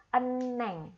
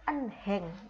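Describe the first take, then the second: First: The middle h sound is dropped entirely. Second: The middle h sound is clearly pronounced. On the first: The speaker calls it right. "hietnya kita hilangkan, tapi cara bacanya cukup eneng" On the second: The speaker calls it wrong. "Harusnya cara bacanya kan enheng"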